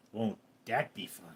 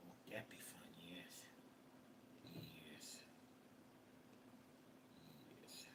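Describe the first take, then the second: First: Said in the usual way. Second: Unvoiced whisper of "Won't that be fun?". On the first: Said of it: "whisper repeat". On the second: Streamer whispering to his cat Ghosty. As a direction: breathe it to the cat, voiceless.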